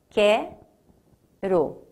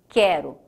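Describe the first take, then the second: First: The word is split with a break between syllables. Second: The word is said smoothly as one unit.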